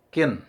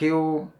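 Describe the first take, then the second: First: The syllable ends in a clear n sound. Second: The syllable ends in a vowel sound. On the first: The speaker calls it right. "tapi kin" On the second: The speaker calls it wrong. "jangan kiu"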